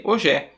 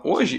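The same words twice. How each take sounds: First: "hoje é" with the stress moved to the final syllable; shifted stress. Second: Said in the usual way. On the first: Shown as a demonstration. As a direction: wrongly land hard on the end of "hoje é". ("hoje é" com a tônica deslocada para o fim) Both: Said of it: "eu mudei a tônica das palavras".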